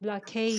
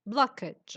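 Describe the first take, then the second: First: The final syllable sounds like 'age'. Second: The final syllable sounds like 'edge'. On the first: The speaker calls it wrong. "not blockage" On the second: The speaker calls it right. "pronounced edge, not age"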